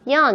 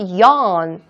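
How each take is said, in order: First: The vowel is small, with the mouth barely open. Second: The vowel is big, with the mouth wide open. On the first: The speaker calls it wrong. "이렇게 하지 말고" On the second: The speaker calls it right. "크게"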